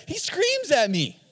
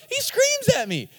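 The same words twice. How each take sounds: First: Said in the usual way. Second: Same words pitched much higher in mock outrage; exasperated repeat. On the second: Shown as a demonstration. Pastor retelling son's tantrum, repeat pitched way up.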